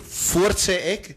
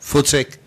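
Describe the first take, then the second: First: The phrase is said at a slow, careful pace. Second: The phrase is said quickly, running words together.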